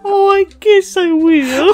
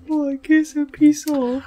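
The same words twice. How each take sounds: First: Slow, soft shy little voice; a shy stuffed bunny pouting. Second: Soft, shy, small voice; cute anime rabbit voice. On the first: Pretend. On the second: Retold or imitated. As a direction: squeak it like a cute bunny. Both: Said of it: "a cute rabbit in an anime".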